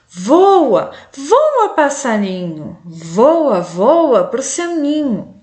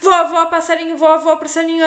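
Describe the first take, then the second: First: It is read calmly with pauses and intonation. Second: It is read quickly without pauses. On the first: The listener can follow the text. The speaker calls it right. "eu tenho que ir com calma, eu tenho que fazer entonação" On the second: The listener will not understand it. The speaker calls it wrong. "Eu não posso ler assim o meu texto"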